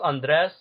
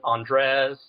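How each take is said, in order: First: "Andres" with short e in the last syllable; technically correct pronunciation. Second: "Andres" as ON-dress, open first vowel; commonly heard pronunciation. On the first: Guest explaining his own name, "Andres" the proper way. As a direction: say "Andres" as an-DRESS. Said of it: "technically it's pronounced Andres". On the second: Guest quoting what people call him, "Andres" as ON-dress. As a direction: say "Andres" the way others say it. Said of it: "heard people refer to it as". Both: Shown as a demonstration.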